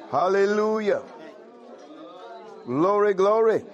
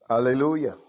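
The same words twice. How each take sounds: First: Exultant praise. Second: Said in the usual way. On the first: Real, not acted. Preacher crying out praise to his congregation, exultant. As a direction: ring it out high and full, glory glory.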